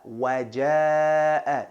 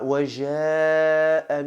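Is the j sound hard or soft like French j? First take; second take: hard; soft. First: The j is hard, as in English jam. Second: The j is soft, like a French j. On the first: The speaker calls it right. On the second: The speaker calls it wrong. "might sound romantic to you, but it's wrong"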